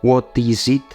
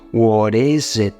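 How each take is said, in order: First: The t is a clear, full t sound. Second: The t becomes a soft r-like flap. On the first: The speaker calls it wrong. "Tú no dices what is it" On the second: The speaker calls it right. "La t se convierte en una r floja y la i"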